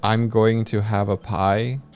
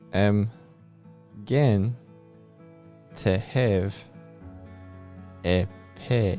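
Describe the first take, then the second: First: The vowels are pronounced in a standard way. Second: The vowels shift toward an 'eh' sound. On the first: "if they're gonna say" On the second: "a lot of the vowel sounds uh, they trend towards eh"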